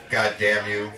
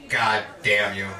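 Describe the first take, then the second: No difference in how they are said.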